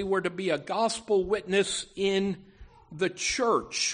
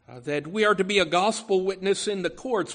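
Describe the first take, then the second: First: The church set apart, each word weighted, falling at the end; stress on the church. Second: Said in the usual way. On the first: Shown as a demonstration. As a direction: lean on "the church" and let it drop. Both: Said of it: "but secondly".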